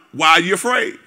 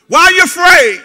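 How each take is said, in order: First: Said in the usual way. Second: Higher, louder, pressing; loud challenging question. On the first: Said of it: "Jesus responded". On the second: Retold or imitated. Preacher voicing Jesus challenging disciples, louder and higher. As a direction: fire it back at the scared crowd. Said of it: "The master asked".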